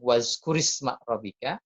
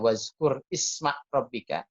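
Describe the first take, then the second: First: The words are linked together in one flow. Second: The words are read as separate words.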